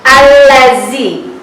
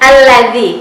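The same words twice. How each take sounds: First: The middle consonant is a plain z sound. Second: The middle consonant is made with tongue out. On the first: The speaker calls it wrong. "jangan dibaca allazi, ya itu huruf zai" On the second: The speaker calls it right. "tapi dibaca allazi, keluarkan lidahnya"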